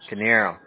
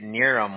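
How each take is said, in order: First: The K sound at the start is pronounced. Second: The K sound at the start is silent. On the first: The speaker calls it right. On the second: The speaker calls it wrong.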